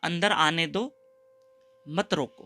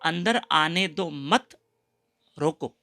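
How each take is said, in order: First: The pause comes after 'do', before 'mat'. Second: The pause comes after 'mat', before 'roko'. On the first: Let him in, do not stop him. The speaker calls it right. "राजा ने लिखा था" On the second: Do not let him in, stop him. The speaker calls it wrong. "मत को इधर कर दिया"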